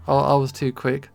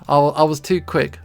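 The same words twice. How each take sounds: The two takes are said the same way.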